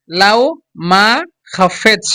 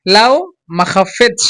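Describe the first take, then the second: First: "লাও, মা, খাফেচ" very slowly with gaps between the parts; slow, broken-up demo. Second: "লাও", a short pause, then "মাখাফেচ" run together; joined, quicker version. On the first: Teacher drills learners on pronunciation, "লাও মাখাফেচ" slowly in separated pieces. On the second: Teacher shows how to say it quickly, "লাও", brief stop, joined "মাখাফেচ". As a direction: say "মাখাফেচ" in one piece after stopping briefly on "লাও". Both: Shown as a demonstration. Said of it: "একসাথে যদি তাড়াতাড়ি বলতে চান".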